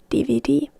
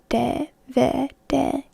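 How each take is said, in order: First: The letters are said with English letter sounds. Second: The letters are said with Finnish letter sounds. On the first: The speaker calls it wrong. "instead of D V D" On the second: The speaker calls it right. "You pronounce it as D V D"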